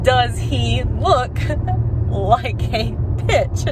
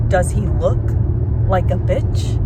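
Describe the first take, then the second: First: Very slow, higher, drawn-out mock demand; insistent repeat. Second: Lightly acted interrogator, pausing mid-question; movie tough guy. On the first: Jules asking Brett again after shooting him, slow mock demand. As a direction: stretch out each word, a laugh breaking in. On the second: Fan doing her favorite movie line justice, measured mock challenge. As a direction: deliver the famous line with a measured pause. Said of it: "I need to give this justice".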